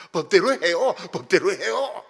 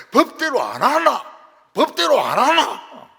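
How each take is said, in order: First: Mock Seoul committee member, loud demand; Seoul-accent quarrel. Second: Mock Gyeongsang brawler, high and very loud; Gyeongsang dialect shouting. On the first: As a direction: loudly insist in standard Seoul Korean. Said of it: "서울 말로 싸우더라고요". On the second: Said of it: "경상도는".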